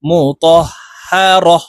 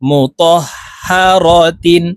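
First: The word ends with a short 'a' sound. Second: The word ends with a full 'tin' ending. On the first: The reader stops at this word. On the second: The reading continues without a stop.

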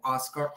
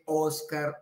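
First: The first vowel is an open 'ah' sound. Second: The first vowel is a rounded 'o' sound. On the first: The speaker calls it right. "sino que es una como Oscar" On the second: The speaker calls it wrong. "no se dice Oscar con O"

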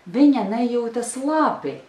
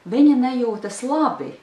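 Both takes have the same delivery.

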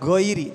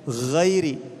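First: The first consonant is a plain hard g. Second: The first consonant is a throaty, rasping gh. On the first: The speaker calls it wrong. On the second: The speaker calls it right.

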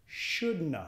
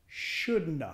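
Both takes have the same delivery.

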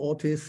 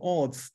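First: The name is said with an added English-sounding vowel. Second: The name is said with a German ending like tz. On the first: This is how hotel staff said it. The speaker calls it wrong. "I'm Mr. Orths, hello. I think, where's the I coming from?" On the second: This is the name's own pronunciation. The speaker calls it right. "O-R-T-Z, Orths, that's a German name"

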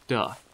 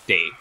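First: The vowel is a short, soft 'uh' sound. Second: The vowel is a longer 'ay' sound. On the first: The speaker calls it wrong. "or it's a softer duh" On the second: The speaker calls it right. "so I think D-E-S is day"

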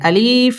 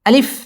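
First: The vowel is drawn out long. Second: The vowel is said short and quick. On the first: The speaker calls it wrong. "আলিফ এইভাবে পড়ে। যদি কেউ এইভাবে টান দিয়ে পড়ে তাহলে তার পড়াটা অশুদ্ধ হবে।" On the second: The speaker calls it right. "আলিফ একদম তাড়াতাড়ি পড়তে হবে।"

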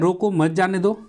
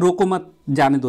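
First: The pause comes right after 'roko'. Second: The pause comes right after 'mat'. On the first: The person should be stopped, not let go. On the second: The person should not be stopped but let go.

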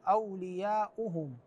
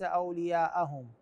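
First: The glottal stop is followed by a 'u' vowel. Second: The glottal stop is followed by an 'a' vowel. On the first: The speaker calls it right. "الهمزة مضمومة" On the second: The speaker calls it wrong. "وليس أولياءهم"

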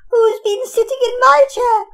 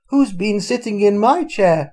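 First: It is said in a tiny, high little voice. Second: It is said in a medium, middle-sized voice.

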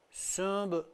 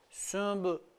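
No difference in how they are said.

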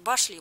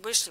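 First: The first vowel is an 'a' sound. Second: The first vowel is an 'e' sound. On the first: "Башли как башня звучит" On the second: "с буквой Э"

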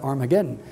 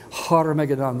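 First: The name starts without an h sound. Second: The name starts with an h sound. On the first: This is the Greek form of the name. "the Greeks drop the aspirate sound, and it comes out Armageddon" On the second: This is the original Hebrew form of the name. "Har Megadon, though"

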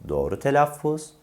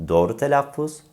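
No difference in how they are said.

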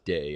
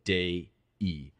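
First: The word is said as one syllable. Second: The word is said as two syllables. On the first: The speaker calls it wrong. "you pronounce that not as day, as in have a nice day" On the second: The speaker calls it right. "but day-e. In Latin, you always pronounce all the vowels"

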